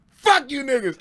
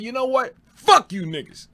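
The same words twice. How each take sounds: First: Higher, louder playful parroting of the line; mock quote as a joke. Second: Loud, higher angry shout at the crowd; angry retort. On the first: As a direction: toss the old line back as a prank. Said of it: "He goes". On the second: Retold or imitated. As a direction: snap back at the hecklers, furious. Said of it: "but I'm mad".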